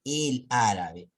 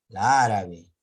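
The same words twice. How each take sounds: First: "el árabe" slowly as the right take; correct form shown. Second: "la árabe" slow and loud as the wrong take; wrong form shown. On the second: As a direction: push "la árabe" out to show the clash. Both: Shown as a demonstration. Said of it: "en vez de decir".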